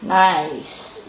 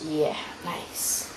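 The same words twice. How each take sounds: First: Said in the usual way. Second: Whispered aside. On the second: Real, not acted. Whispered echo of own remark.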